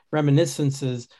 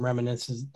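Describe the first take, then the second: First: Fix the word by saying "reminiscences" cleanly; a careful second try at "reminiscences"; careful repeat. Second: "reminiscences" slurred and rushed, syllables run together; a garbled first go at "reminiscences"; stumbled word. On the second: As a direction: trip over "reminiscences". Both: Real, not acted.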